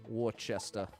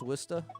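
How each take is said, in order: First: The word is said with three syllables, as spelled. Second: The word is said with two short syllables. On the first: This is how people guess from the spelling. The speaker calls it wrong. "you're more likely to say Worcester" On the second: This is how the name is really said. The speaker calls it right. "Would you guess that's Worcester?"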